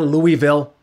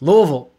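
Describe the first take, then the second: First: The name is said fully, every syllable distinct. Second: The name is said slurred, syllables run together. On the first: The speaker calls it wrong. "It's not Louisville" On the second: The speaker calls it right. "You say it like you're swirling some bourbon in your palate"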